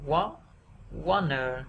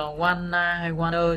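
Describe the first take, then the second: First: "wa" lifted, then "wanna" falling; first-syllable stress. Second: "wanna" with both syllables evenly weighted; mistaken even stress. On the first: Teacher modelling the word, "wanna" stressed first. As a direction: rise on "wa-", drop on "na". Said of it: "chúng ta sẽ". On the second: Teacher showing what to avoid, "wanna" evenly stressed. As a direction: say "wanna" without a stressed rise. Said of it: "thay vì là". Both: Shown as a demonstration.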